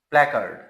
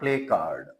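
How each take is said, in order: First: The first syllable sounds like 'plack'. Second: The first syllable sounds like 'play'. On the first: The speaker calls it right. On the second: The speaker calls it wrong. "not play card"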